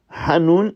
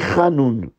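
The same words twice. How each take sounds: First: It starts with a throaty h sound. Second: It starts with a scraped kh sound. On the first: The speaker calls it right. "Au lieu de dire Hanoun" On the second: The speaker calls it wrong. "il prononce le Het comme un Kaf, comme un Chaf"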